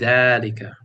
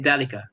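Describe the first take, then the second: First: The first vowel is stretched long. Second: The first vowel is short, not stretched. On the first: The speaker calls it right. "But we're stretching this dal. We have to stretch it" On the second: The speaker calls it wrong. "So do not say ذلك"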